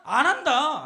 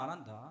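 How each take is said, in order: First: Loud, emphatic answer; preacher's raised-voice verdict; loud refrain. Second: Low, very soft repeat; quiet afterthought, much lower; hushed echo. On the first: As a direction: belt out the answer. Loud refrain answering own question. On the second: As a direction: drop right down to a murmur. Refrain echoed in low drop. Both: Shown as a demonstration.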